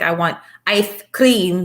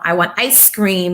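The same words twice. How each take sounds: First: The S sound is said in a distorted way. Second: The S sound is said clearly. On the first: This is how it comes out for the child. The speaker calls it wrong. "it might sound like" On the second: This is what the child intends to say. The speaker calls it right. "if they want to say"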